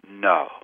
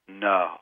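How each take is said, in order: First: It is said firmly, with no warmth. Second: It is said firmly but with warmth.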